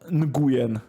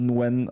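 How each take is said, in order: First: The name is read out letter by letter, Polish-style. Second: The name sounds close to the word 'win'. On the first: The speaker calls it wrong. "definitely not Nguyen, as Polish people would say" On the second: The speaker calls it right. "somewhat close to Nguyen or Win even"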